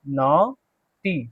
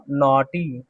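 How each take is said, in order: First: naughty stretched out very slowly, nɔʈi; slow model word. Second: Said in the usual way. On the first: Shown as a demonstration. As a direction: spell out naughty syllable by syllable, very slowly. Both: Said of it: "क्या पढ़ेंगे इसको?".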